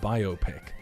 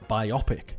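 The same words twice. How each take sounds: First: The word is said the usual way. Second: The word is said like biopsy. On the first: "instead of biopic" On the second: "So you would say it like how biopsy"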